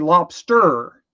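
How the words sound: It is said in a Mid-Atlantic accent. "if you're from like mid mid Atlantic, it's a lobster"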